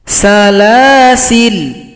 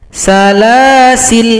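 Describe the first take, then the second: Both takes have the same delivery.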